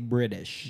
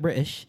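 First: The T is said softly, like a D. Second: The word is said lazily and loosely. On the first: "Americans pronounce their T's as D's. We say British" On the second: "get real lazy with it, British. And you start turning into an Aussie"

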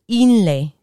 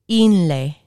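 No difference in how they are said.

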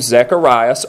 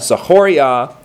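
First: The name is pronounced the usual English way. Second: The name is pronounced the Hebrew way.

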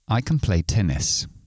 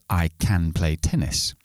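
First: Can is weak and quick, like kun. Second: Can is full, with a clear vowel. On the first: The speaker calls it right. "cuando lo convertimos a su sonido débil, es kun... lo voy a decir lo más rápido posible" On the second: The speaker calls it wrong. "En lugar de decir"

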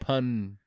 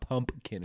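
First: The first syllable is said without an m sound. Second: The first syllable is said with an m sound. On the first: The speaker calls it right. "it's like punkin" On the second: The speaker calls it wrong. "not pumpkin"

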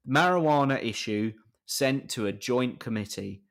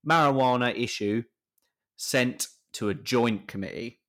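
First: It is read plainly, without playing up the pun. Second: It is read playfully, playing up the pun.

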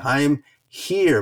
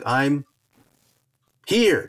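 First: A brief pause comes before 'here'. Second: A long pause comes before 'here'. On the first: The speaker calls it right. "But you could also say I'm here" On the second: The speaker calls it wrong. "That was a little bit too long of a pause"

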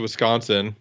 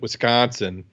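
First: The word is said in the speaker's plain accent. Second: The word is said in a put-on Iowa accent.

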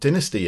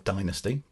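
First: It is said in a British accent. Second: It is said in an American accent.

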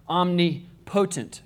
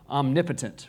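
First: The stress falls on the syllable 'po'. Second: The stress falls on the syllable 'nip'. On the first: The speaker calls it wrong. "if you read that word, it looks like omnipotent" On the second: The speaker calls it right. "if you can say it correctly"

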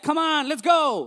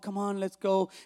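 First: It is said in a strong, forceful way. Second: It is said in a weak, unforceful way. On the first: The speaker calls it right. "It's a strong kind of encouragement" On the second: The speaker calls it wrong. "it's not like"

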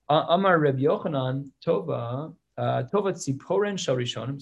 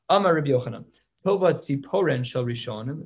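First: The words are grouped and paused awkwardly. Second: The words are grouped and paused smoothly. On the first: The speaker calls it wrong. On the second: The speaker calls it right. "let me read that with better punctuation"

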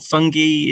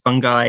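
First: The word has the British pronunciation. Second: The word has the American pronunciation. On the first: "Fungi is the British" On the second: "Fungi is the American"

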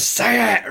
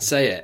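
First: It is shouted very loudly. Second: It is said at a normal, quiet volume.

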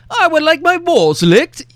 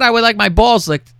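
First: It is spoken in a posh English accent. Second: It is spoken in a plain, unaccented voice. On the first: The request sounds classy and proper. "it's a creepo with an English voice" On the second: The request sounds ordinary. "that would be fucking normal"

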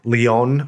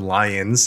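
First: The name is said in a non-American way. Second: The name is said the American way.

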